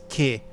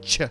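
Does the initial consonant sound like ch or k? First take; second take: k; ch. First: The sound is a hard k sound. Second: The sound is a ch sound. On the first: "but it says ki" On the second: "I just like a C H where like your tongue is in a particular position"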